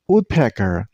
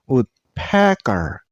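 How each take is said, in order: First: The stress is on the first syllable. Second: The stress is on a later syllable. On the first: The speaker calls it right. "you also stress on the first syllable. I mean on wood" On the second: The speaker calls it wrong. "not woodpecker. Don't stress on the wrong syllable"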